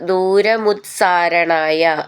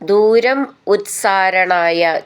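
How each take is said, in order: First: The two words are run together. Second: The two words are said separately.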